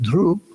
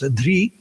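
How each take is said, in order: First: The root ends in an oo-like vowel. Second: The root ends in an ee-like vowel. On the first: This is the Maharashtrian and South Indian pronunciation. "Maharashtrians and some South Indians pronounce it dhru" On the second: This is the Bengali and North Indian pronunciation. "among Bengalis and North Indians, it's often pronounced dhri"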